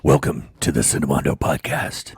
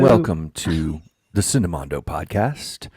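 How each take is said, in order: First: It is said in a deep, gravelly put-on voice. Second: It is said in a normal speaking voice.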